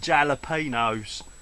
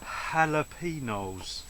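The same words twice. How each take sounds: First: It is said in a casual East London pronunciation. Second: It is said in a careful standard pronunciation. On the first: This is how the speaker usually says it. The speaker calls it wrong. "I normally call them jalapenos" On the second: This is the proper way to say it. The speaker calls it right. "I'm going to pronounce them right there"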